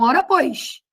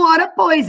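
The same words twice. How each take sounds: First: The s sounds are hushing sh sounds. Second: The s sounds are plain hissing sounds. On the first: "eles falam" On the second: "Eles não falam"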